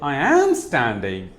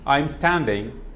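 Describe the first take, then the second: First: The verb am is said fully and stressed. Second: The verb am is contracted and unstressed. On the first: It insists the statement is really true. "Stress on am" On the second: It is a plain statement. "a simple sentence"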